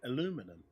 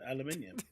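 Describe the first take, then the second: First: It is said the American way, four syllables. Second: It is said the British way, five syllables. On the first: This is how other people say it. The speaker calls it wrong. "They say it aluminum" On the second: This is how the speakers themselves say it. The speaker calls it right. "We say it correctly. We did, aluminium"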